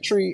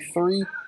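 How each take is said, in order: First: It begins with a plain T sound. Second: It begins with a TH sound. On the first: This is how people from the islands say it. "like we say tree" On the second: This is how Americans say it. "and then they say three"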